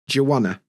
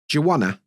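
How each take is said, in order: First: Want to is reduced to wanna. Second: Want to is reduced to wanna.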